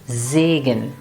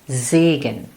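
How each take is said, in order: The two takes are said the same way.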